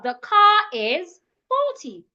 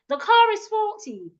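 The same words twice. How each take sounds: First: 'Car' and 'is' are said as separate words. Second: 'Car' and 'is' are linked into one sound. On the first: "instead of" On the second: "Car and is, I will say them together"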